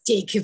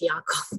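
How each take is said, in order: First: The name is said with an English pronunciation. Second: The name is said with a Danish pronunciation. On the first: The speaker calls it right. "but it's Jacob in English" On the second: The speaker calls it wrong. "I read it like in Danish"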